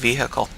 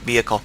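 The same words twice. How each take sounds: First: It has a slight H sound in the middle. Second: It has no H sound in the middle. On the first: "I always pronounce it vehicle, uh, with a slight H sound" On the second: "not vehicle"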